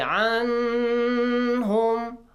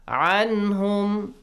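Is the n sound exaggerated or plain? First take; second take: exaggerated; plain. First: The n sound is strongly over-articulated. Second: The n sound is clear but not overdone. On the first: The speaker calls it wrong. "Do not make it really clear" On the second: The speaker calls it right. "Just make it clear"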